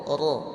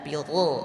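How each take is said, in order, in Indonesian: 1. Suku kata ra berat dengan vokal o. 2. Suku kata ra berat dengan vokal o.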